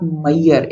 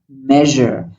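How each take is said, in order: First: The middle consonant is not a buzzing zh. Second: The middle consonant is a buzzing zh. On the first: The speaker calls it wrong. "It's not Mayer" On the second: The speaker calls it right. "It's zh, like a vacuum cleaner sound"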